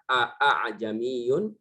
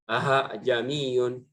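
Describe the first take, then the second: First: Both glottal stops are pronounced fully and clearly. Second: The second glottal stop becomes an h sound. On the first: "diucapkan dengan dua hamzah" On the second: "menggantikan hamzah yang kedua menjadi ha"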